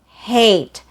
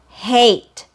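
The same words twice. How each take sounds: First: The vowel is long, gliding from open upward. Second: The vowel is long, gliding from open upward.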